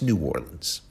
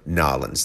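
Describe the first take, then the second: First: The first word is said as a full syllable. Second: The first word is clipped to a bare N. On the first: The speaker calls it right. "It's New Orleans" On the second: The speaker calls it wrong. "Never Nolans. That N apostrophe A-W-L-I. Do not do that"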